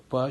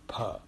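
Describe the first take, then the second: First: The consonant has no extra puff of air. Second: The consonant has an extra puff of air. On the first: The speaker calls it wrong. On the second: The speaker calls it right.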